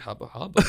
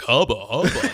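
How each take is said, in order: First: It is said nervously and half-heartedly. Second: It is said like an exaggerated cartoon.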